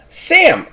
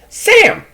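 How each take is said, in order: First: It is said in a put-on interviewer voice. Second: It is said in a put-on interviewer voice.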